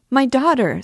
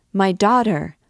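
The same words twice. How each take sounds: First: Much higher, louder terrified shriek; desperate scream. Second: Put-on loud, frightened cry for her child; terrified scream. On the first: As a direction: shriek it at full force. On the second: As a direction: call out in fear. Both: A narrator's reading. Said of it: "screamed the terrified mother".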